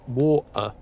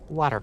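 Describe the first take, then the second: First: The final R is dropped, British style. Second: The final R is pronounced, rhotic style.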